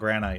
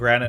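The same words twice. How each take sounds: First: The last syllable sounds like 'kite'. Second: The last syllable sounds like 'it'. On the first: This matches how the other stone names end. "Every other stone we say ite" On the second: This is how people normally say it. "Why do we call it granite"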